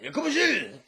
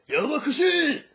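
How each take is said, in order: First: Loud, high laughing mock shout; Jotaro yelling again. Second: Loud, high mock shout; Jotaro yelling. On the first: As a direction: shout it out while cracking up. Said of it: "he's like". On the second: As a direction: bark it out like an annoyed Jotaro. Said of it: "you see Jotaro at that point".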